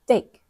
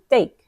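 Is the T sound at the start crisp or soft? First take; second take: soft; soft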